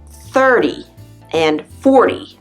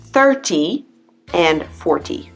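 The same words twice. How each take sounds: First: The middle consonant sounds like a soft D. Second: The middle consonant is a crisp T. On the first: "this D sound is also in numbers like" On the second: "But no one says that"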